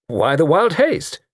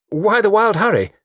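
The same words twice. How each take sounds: First: Slow, high repeated question; pointed, drawn-out asking; insistent repeat. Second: Loud, high surprised question; startled, loud demand for a reason; surprised query. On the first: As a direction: draw the question out to press it. But as I say. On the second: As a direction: exclaim it, pitched well up and falling at the end. Startled by a collision, first asking. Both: Acted.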